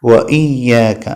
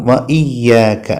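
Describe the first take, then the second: The two takes are said the same way.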